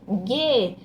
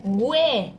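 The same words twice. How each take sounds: First: "gue" with a silent u, like "geh"; corrected "gue", pronounced ge; expected reading. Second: "Gue" with the u sounded, like "gweh"; child's slip "Gue", pronounced gwe; misread syllable. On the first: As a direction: say "gue" with a hard g and no w. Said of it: "Tá lendo certo?". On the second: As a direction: put a w glide into "Gue". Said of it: "Tá lendo errado?". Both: Shown as a demonstration.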